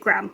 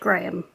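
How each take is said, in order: First: It is said with an American pronunciation. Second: It is said with a British pronunciation. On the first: "this is from the U S and you pronounce it Graham over there" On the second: "In the U K we say the word Graham"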